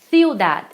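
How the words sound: The first consonant is a lisped th sound. "na Espanha... botando a língua nos dentes... como se fosse o T H do inglês"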